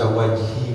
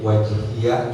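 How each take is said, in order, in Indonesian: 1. Kata itu berakhir dengan bunyi 'i' pendek. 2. Kata itu berakhir dengan tambahan suku kata 'ya'. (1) "dibaca wajhi boleh" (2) "wajhiya juga boleh"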